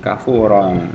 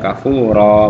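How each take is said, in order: First: The word ends with an n sound. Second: The word ends with a long vowel.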